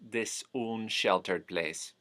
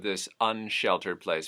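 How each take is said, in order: First: The 'un' vowel sounds closer to 'oo'. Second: The 'un' vowel sounds like 'uh'.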